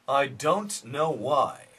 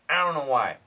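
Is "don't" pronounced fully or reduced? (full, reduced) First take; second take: full; reduced. First: Don't is pronounced fully and clearly. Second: Don't is reduced, its consonants dropped. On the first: This is careful, standard speech. "Proper English" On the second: This is casual everyday speech. "But real slang style English"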